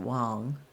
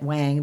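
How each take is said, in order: First: The name is said with a non-English pronunciation. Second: The name is said with an English pronunciation. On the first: This is how the name's owner says it. "I do believe they pronounce it Wang" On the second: This is how English speakers say it. "we who speak English would call it Wang"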